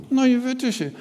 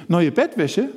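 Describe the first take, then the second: First: Higher, sulky puppet voice; puppet Willi. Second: Said in the usual way. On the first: Acted. Puppet Willi telling the presenter his wish, sulky and high. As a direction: sulk it out as the little bird.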